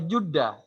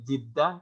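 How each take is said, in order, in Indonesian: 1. Suku kata pertama memakai vokal u. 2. Suku kata pertama memakai vokal i. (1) "kalau dibaca Judah itu artinya nasib baik" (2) "Kalau Jiddah itu artinya baru, tepi, tepi sungai"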